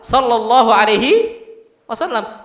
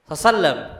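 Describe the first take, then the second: First: Every word of the phrase is said fully. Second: The phrase is rushed and clipped into one word. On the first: The speaker calls it right. "Harusnya apa? Sallallahu alaihi wasallam" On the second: The speaker calls it wrong. "Ana sering coba sallam. Salah enggak itu? Salah"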